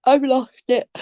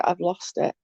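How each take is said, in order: First: Exasperated. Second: Much softer, flat admission; resigned. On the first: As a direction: still high, giving up on herself. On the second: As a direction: let it fall away, quietly defeated. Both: Real, not acted. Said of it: "there's no losing about it".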